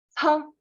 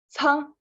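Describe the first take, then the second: No difference in how they are said.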